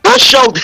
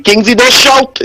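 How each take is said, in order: First: Don't shout in a squeaky mocking pitch; mock high voice. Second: A plain retold warning; quoting a listener. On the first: Caller mocks the man's warning in a squeaky voice. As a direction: mimic the man, much higher and teasing. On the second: Caller quotes a man telling him not to shout, plainly. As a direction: repeat what the man told him, plainly. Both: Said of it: "He saying".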